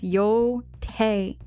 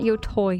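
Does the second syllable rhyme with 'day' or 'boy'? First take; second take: day; boy. First: The second syllable rhymes with 'day'. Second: The second syllable rhymes with 'boy'. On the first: The speaker calls it right. "it's Yo-Tay" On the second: The speaker calls it wrong. "Not Yo-Toy"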